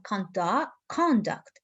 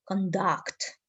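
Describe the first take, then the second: First: CONduct with the first syllable of "conduct" stressed. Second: ConDUCT with the second syllable of "conduct" stressed. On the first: Teacher shows students the noun form, "conduct" stressed on CON. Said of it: "put the stress for the first". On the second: Teacher shows students the verb form, "conduct" stressed on DUCT. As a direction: lean on the end of "conduct", con-DUCT. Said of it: "stress mark for the second". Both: Shown as a demonstration.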